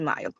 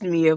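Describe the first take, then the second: First: The first vowel sounds like 'eye'. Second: The first vowel sounds like 'ee'. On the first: This is the name's real pronunciation. The speaker calls it right. "but it's obviously Maya" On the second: This is how people misread the name. The speaker calls it wrong. "it looks like that is Mia"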